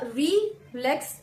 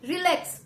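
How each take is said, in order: First: The stress falls on the first syllable. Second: The stress falls on the second syllable. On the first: The speaker calls it wrong. "ऐसे नहीं" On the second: The speaker calls it right. "री को हम softly जल्दी से बोलते हैं और लेक्स वाले पोर्शन को थोड़ा स्ट्रेच करके"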